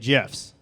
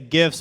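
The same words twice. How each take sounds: First: The word starts with a soft j sound. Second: The word starts with a hard g sound. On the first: "with a soft G and say GIFs" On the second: "with a hard G"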